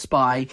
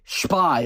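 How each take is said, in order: First: The word is said in a plain English accent. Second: The word is said with a Yiddish accent.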